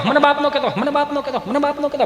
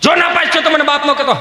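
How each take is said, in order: First: High, softer repeats dying away; echo. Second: High-pitched, ringing warning; father's warning. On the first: Father's warning bouncing back, as fading echoes. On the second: Father warning son about exam result, ringing out. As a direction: call it out so that it echoes. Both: Acted. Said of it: "પડઘા મળ્યા પડવા".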